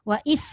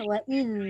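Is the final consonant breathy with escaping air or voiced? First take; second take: breathy; voiced. First: The final consonant is breathy, like an s. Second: The final consonant is voiced, with no air escaping. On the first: The speaker calls it wrong. "Kalau ada hamas wa is, dia macam huruf sa" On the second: The speaker calls it right. "Rakhawah. Itu bukan bukan hamas"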